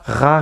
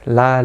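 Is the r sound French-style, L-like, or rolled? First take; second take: French-style; L-like. First: The r is made in the throat. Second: The r is a light tap like l. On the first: The speaker calls it wrong. "Ne prononcez pas le R à la française. Ne dites pas ra" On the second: The speaker calls it right. "On va vraiment rester plus proche d'un L"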